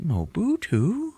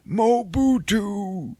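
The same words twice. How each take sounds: First: "Mobutu?" drawn out slowly, much higher, rising at the end; confused, high, slow "Mobutu?" with a rising close; puzzled echo. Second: "Mobutu" drawn out very slowly, much higher, falling at the end; high, slow mock Saw saying "Mobutu" with a falling close; Forrest Whitaker's cryptic word. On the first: Retold or imitated. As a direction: repeat "Mobutu?" as a baffled question. [name] repeats word, puzzled. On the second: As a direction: intone "Mobutu" like a mysterious password. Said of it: "Forrest Whitaker just says some word like".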